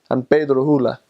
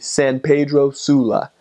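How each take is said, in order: First: The S sounds are dropped or weakened. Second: The S sounds are pronounced clearly. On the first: "they eat their S's" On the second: "it's very obvious there's S's in there"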